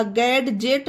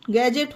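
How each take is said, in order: First: गैडजेट said with a clear d before the j, gad-jet; wrong way with d. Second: गैजेट said with no d sound, like gajet; गैजेट with the d left out, gadget as gajet; silent d. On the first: Teacher shows students the wrong गैडजेट with a d. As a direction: sound the d in गैडजेट as a mistake. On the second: Teacher models गैजेट with a silent d for students. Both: Shown as a demonstration. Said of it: "गैडजेट नहीं होगा".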